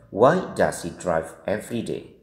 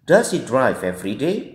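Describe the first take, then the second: First: Slow and lower, "every day" dropping at the end; wh-question tune falling on "day"; falling question intonation. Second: "every day" climbing at the end; teacher's model question, "day" going up; rising question intonation. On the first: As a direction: start on "Why", let "day" fall. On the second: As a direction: lift the pitch on "day" as a yes-no question. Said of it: "Kita baca sekali lagi". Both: Shown as a demonstration.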